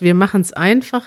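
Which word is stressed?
einfach. The stress is on einfach.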